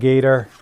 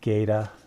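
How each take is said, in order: First: It is said in a general accent. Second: It is said in a New England accent.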